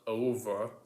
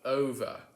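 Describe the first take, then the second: First: The O vowel is made at the back. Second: The O vowel is made further forward. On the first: "not over" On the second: "That's how the Brits would do it"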